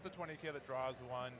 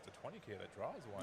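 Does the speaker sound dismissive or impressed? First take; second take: dismissive; impressed. First: It sounds dismissive and unimpressed. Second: It sounds impressed and appreciative.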